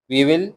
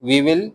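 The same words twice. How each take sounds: The two takes are said the same way.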